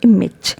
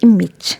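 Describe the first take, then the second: First: The last syllable has a short i sound. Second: The same.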